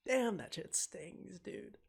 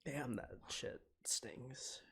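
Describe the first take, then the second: First: Higher, slow, pained exclamation; emotional outburst. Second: Slow, hushed whisper. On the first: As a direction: let the hurt burst out. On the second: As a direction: breathe it out under your breath. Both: Real, not acted. Streamer moved by sad scene.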